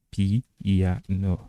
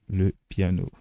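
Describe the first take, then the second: First: PIANO split into pi-ya-no, Turkish style; syllable by syllable. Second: Said in the usual way. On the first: Shown as a demonstration. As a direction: sound out PIANO slowly, each syllable apart. Mot turc découpé en syllabes. (PIANO détaché, pi-ya-no, à la turque)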